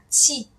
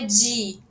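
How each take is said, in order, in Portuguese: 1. Começa com um som surdo, parecido com ch. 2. Começa com um som sonoro, parecido com j. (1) "ele é o T, C, H" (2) "E não é di. Di é D, J"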